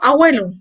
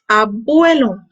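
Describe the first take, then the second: First: The word is said with an altered, nonstandard sound. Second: The word is said with a clear b sound. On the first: The speaker calls it wrong. "no estoy pronunciando bien la palabra abuelo" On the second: The speaker calls it right. "La palabra correcta sabemos que es abuelo, hasta se refleja en los labios"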